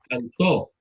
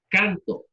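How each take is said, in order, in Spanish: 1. El acento está en la última sílaba. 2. El acento está en la primera sílaba. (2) "Llana. / Muy bien"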